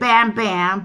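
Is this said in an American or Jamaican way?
American. It is said in an American way. This is how the speakers themselves say it. "We pronounce it Bam Bam"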